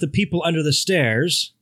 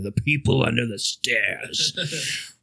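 First: It is said in a plain, neutral tone. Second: It is said in a menacing, threatening tone.

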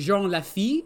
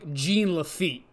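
First: The name is said the French way. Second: The name is said the anglicized way. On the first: The speaker calls it right. "the actual pronunciation would be" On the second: The speaker calls it wrong. "how the fucking North Dakotans up in the Gemisphere pronounce it"

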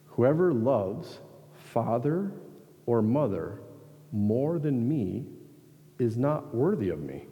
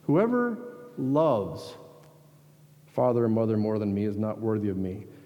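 First: The word loves gets no special emphasis. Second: The word loves is clearly emphasized.

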